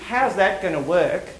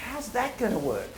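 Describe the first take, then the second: First: Slow, sceptical how's that gonna work, doubting the idea; doubtful. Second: Softer, eager how's that gonna work, lifted on that; curious. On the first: To the president, slowly doubting it can work. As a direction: drag it out like you're shooting the idea down. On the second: Designers meeting the moon challenge, curious and eager. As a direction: wonder aloud as if the puzzle thrills you. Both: Shown as a demonstration. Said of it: "You see the difference?".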